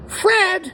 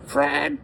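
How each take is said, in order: First: The name is yelled loudly. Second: The name is said quietly.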